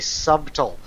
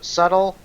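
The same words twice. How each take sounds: First: The b sound is pronounced in the middle. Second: The b sound is silent in the middle. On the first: The speaker calls it wrong. "a lot of times I say subtle" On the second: The speaker calls it right. "so subtle"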